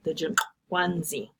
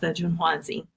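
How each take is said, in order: First: The name is said with click sounds. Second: The name is said without any click sounds. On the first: This is the native pronunciation. The speaker calls it right. "The actual pronunciation is something like" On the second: This is a simplified, anglicized version. The speaker calls it wrong. "So I sort of gloss it as"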